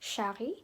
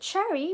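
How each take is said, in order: First: The name is said with a French pronunciation. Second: The name is said with a non-French pronunciation.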